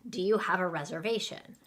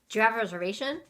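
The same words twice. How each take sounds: First: It is said at a normal speed. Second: It is said very fast.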